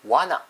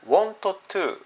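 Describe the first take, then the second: First: Want to is blended into wanna. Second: Want to is said as two full words. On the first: "wanna というふうに発音します" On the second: "want to というのではなくて"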